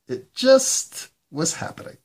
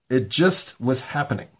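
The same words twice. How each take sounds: First: Much higher, squeaky echo of the line; high squeaky repeat. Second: Said in the usual way. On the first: Acted. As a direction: jump way up in pitch and squeak it.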